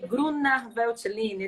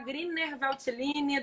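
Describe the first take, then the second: First: The first vowel of Grüner sounds like 'oo'. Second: The first vowel of Grüner sounds like 'ee'. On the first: "do que Gruner Veltliner" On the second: "eu prefiro falar Griner Veltliner"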